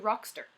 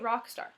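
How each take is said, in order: First: The second syllable is reduced to 'ster'. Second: The second syllable has a full 'star' vowel. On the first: The speaker calls it wrong. "They say rockster" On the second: The speaker calls it right. "They don't say rock star"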